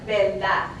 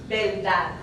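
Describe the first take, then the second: Both takes have the same delivery.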